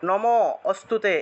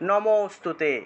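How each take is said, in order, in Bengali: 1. শব্দটি nam-এর পরে একটি বিরতি দিয়ে বলা হয়। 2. শব্দটি বিরতি ছাড়া সহজভাবে বলা হয়। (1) "এইভাবে থেমে থেমে উচ্চারণ করা যাবে না" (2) "ম থেকে একটু টান দিতে হবে"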